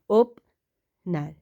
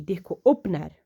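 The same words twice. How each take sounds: First: opener stretched slowly while writing; slow drawn-out dictation. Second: Said in the usual way. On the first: Shown as a demonstration. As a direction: draw out opener as you trace it.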